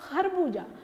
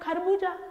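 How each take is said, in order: First: It begins with a throaty fricative kh. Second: It begins with a plain aspirated kh stop. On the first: The speaker calls it wrong. "नुक्ता लगा दिया तो ये बन गया" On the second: The speaker calls it right. "हमारा सही शब्द है"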